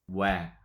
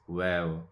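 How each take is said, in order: First: It is an open wa with widened lips. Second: It sounds like wow with lips not widened. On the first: The speaker calls it right. "Make sure we widen our mouth" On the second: The speaker calls it wrong. "people say they like wow like this"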